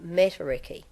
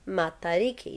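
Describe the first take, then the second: First: The vowels are said in an English way. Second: The vowels are said in a Māori way. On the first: The speaker calls it wrong. "not matariki" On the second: The speaker calls it right. "the pronunciation of matariki is matariki"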